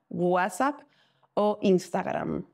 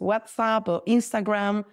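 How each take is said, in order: First: The names are pronounced the Spanish way. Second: The names are pronounced the English way. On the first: The speaker calls it right. "así lo pronunciamos" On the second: The speaker calls it wrong. "en español no decimos"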